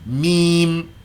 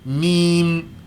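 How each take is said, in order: Both takes have the same delivery.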